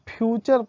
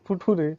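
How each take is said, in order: First: The middle consonant is a ch sound. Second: The middle consonant is a plain t sound. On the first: The speaker calls it right. "इसको फ्यूचर पढ़ते हैं" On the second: The speaker calls it wrong. "अब इसको फुटूरे नहीं पढ़ेंगे हम"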